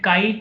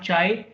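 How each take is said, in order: First: It does not begin with a 'ch' sound. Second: It begins with a 'ch' sound, like 'chai'. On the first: It names the Greek letter. The speaker calls it right. "I pronounce it chi" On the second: It sounds like the word for tea. The speaker calls it wrong. "not chai, because I love chai"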